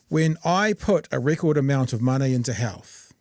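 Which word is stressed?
none. The sentence is read without special emphasis. "I'll read you the sentence"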